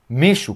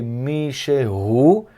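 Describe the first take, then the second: First: It is said fast with the middle syllable dropped. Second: All three syllables are pronounced carefully. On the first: "Quando a gente fala rápido, a gente fala Mishu" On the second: "A pronúncia é Mishehu"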